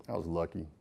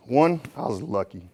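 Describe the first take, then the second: First: A soft low murmur, much quieter; quiet echo. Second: Said in the usual way. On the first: Shown as a demonstration. Speaker to the crowd, repeating the point, hushed and lower. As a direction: let the words fall away almost to nothing.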